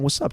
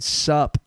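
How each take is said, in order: First: Both words of "what's up" are said in full. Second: "What's up" is clipped down to "sup". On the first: This is how it was meant to sound. The speaker calls it right. "in my mind, I was saying" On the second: This is how it actually came out. The speaker calls it wrong. "it sounded like I was just saying"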